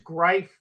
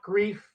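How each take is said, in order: First: It does not sound like the word grief. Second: It sounds like the word grief. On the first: The speaker calls it right. "the pronunciation of that gentleman's name is Greif" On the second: The speaker calls it wrong. "not Grief"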